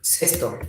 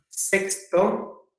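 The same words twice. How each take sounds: First: "Cesto" as SES-to, no k; low, soft, falling "Cesto"; contrastive articulation. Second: "Sexto" slowly with an audible k before the s; softer, rising "Sexto", as SEKS-to; contrastive articulation. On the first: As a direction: say "Cesto" with just an s before the t. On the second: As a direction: say "Sexto" with the ks cluster clear. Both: Shown as a demonstration. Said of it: "parecida pronunciación".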